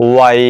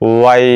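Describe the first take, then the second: No difference in how they are said.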